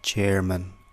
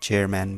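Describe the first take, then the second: First: The last syllable is a reduced 'mun'. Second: The last syllable is a full 'man'. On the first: The speaker calls it right. "इङ्ग्लिसमा खासमा चाहिँ" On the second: The speaker calls it wrong. "Usually हामीले"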